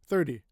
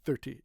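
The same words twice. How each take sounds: First: The T is soft, almost like a D. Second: The T is said as a crisp, strong T. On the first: The speaker calls it right. "like a D almost" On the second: The speaker calls it wrong. "But we don't say thirty"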